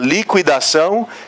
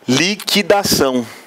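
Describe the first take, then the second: First: The u after the q is pronounced. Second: The u after the q is silent. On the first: "se você encontrasse com os dois pinguinhos" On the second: "ele mesmo já colocava ou liquidação"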